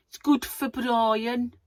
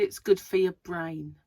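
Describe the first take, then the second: First: Exaggerated, drawn-out Brummie, higher and louder; Birmingham accent. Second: Said in the usual way. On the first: Shown as a demonstration. Vlogger slipping into a silly accent on camera, hammed-up Birmingham accent. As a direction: stretch it out in a broad Birmingham accent. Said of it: "Why did I say it in that accent". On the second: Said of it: "in that accent".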